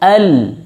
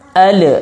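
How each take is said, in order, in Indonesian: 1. L di akhir ditahan tanpa dilepas. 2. L di akhir dilepas dengan pantulan. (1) "jangan dilepas" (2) "memantulkan lam"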